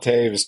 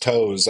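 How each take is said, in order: First: The name is said with an 'ay' vowel sound. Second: The name is said like the word 'toes'. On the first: The speaker calls it right. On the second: The speaker calls it wrong.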